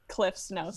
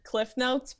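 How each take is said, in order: First: Cliff is said with an s sound. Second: Cliff is said without an s sound. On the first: This matches how the name is spelled. "but there it's Cliff's Notes" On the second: This is the common way people say it. "most people pronounce it Cliff Notes"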